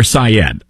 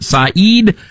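First: Syed said as sigh-ED; short "e" ending on Syed; Syed pronunciation. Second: Saeed said slowly as sah-EED; long "ee" ending on Saeed; Saeed pronunciation. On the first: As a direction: end Syed on a short ED, not EED. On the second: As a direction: stretch the second syllable of Saeed into EED. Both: Shown as a demonstration. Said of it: "let's decide on the pronunciation".

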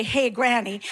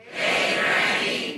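First: Said in the usual way. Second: Slow, drawn-out Hey, granny; audience call. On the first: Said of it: "When I say go, you say". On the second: Shown as a demonstration. Audience member calls out to the comedian, slow "Hey, granny".

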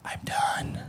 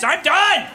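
First: Hushed, spent mimicry of a wife; soft, acted surrender; exhausted whisper. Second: Very high, loud acted outburst; imitated wife at breaking point; fed-up yell. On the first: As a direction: whisper it as if at the limit. Acts exhausted wife giving up. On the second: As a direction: scream it as the last straw. Wife's meltdown peaks.

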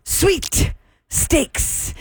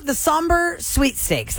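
First: Sweet Steaks spelled out as suite; suite corrected. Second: Sweet Steaks with steaks like meat. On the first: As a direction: stress Sweet, meaning suite. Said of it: "S U I T E". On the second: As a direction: say Steaks like the food. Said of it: "She's saying sweet". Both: Shown as a demonstration.

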